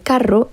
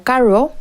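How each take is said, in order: First: The r is a clear, strong trill. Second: The r is weak and not clearly trilled. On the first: "en lugar de" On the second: "Cuando no se pronuncia la R suena como"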